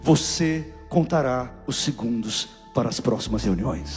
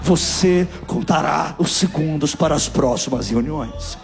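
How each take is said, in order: First: It is said at normal volume. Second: It is said louder and more forcefully.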